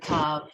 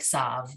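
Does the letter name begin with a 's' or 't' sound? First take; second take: t; s. First: The letter name begins with a 't' sound. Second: The letter name begins with an 's' sound. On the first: This is the current standard pronunciation. The speaker calls it right. "the Tav letter in modern Hebrew always sounds like Tav" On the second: This is an outdated pronunciation nobody uses now. The speaker calls it wrong.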